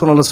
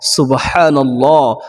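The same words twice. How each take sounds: First: It is said quickly and hurriedly. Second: It is said slowly and calmly.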